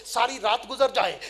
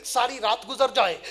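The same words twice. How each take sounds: The two takes are said the same way.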